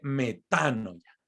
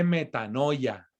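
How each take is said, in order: First: The stress falls on the syllable 'ta'. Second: The stress falls on a later syllable, not 'ta'. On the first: The speaker calls it right. "se dice metanoia. Metá, con acento en la" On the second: The speaker calls it wrong. "No se dice metanoia"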